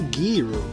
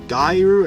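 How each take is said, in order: First: The first syllable does not rhyme with 'eye'. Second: The first syllable rhymes with 'eye'.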